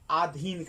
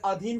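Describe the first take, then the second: First: The first vowel is long. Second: The first vowel is short. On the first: The speaker calls it wrong. "आधीन कर देता है" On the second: The speaker calls it right. "मात्रा"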